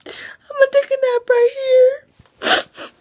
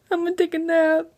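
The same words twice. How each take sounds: First: Much higher whining fake sob; whiny mock cry. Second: Higher, sleepy mock announcement; sleepy joke voice. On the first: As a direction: wail it like a tired child. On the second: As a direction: announce a nap, playfully. Jokey sleepy sign-off.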